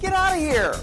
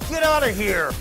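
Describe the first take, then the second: First: It is said in an excited tone. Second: It is said in an angry tone.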